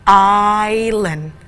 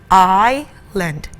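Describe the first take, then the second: The two takes are said the same way.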